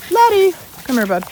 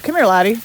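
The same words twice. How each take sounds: First: Much higher coaxing call; high sing-song call to the dog. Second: Said in the usual way. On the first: Real, not acted. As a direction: lift the voice high to coax the dog over. Calling dog again, higher.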